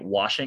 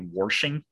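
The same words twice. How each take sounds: First: Said plainly, with no added R sound. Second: An R is added and the SH is strong. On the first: The speaker calls it right. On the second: The speaker calls it wrong.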